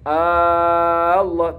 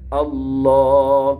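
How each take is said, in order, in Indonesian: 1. Vokal awalnya dipanjangkan. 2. Vokal awalnya tetap dibaca pendek. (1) "enggak boleh"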